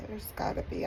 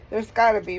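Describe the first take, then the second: First: Barely voiced, choked with real tears; whispered through tears; tearful whisper. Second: Said in the usual way. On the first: Real, not acted. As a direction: voice breaking into a whisper. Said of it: "blubbering idiot".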